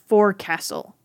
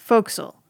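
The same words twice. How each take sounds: First: It is said in full, as spelled. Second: It is said in a short, reduced form. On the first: The speaker calls it wrong. "It looks like the word forecastle" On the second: The speaker calls it right. "but it's pronounced forecastle"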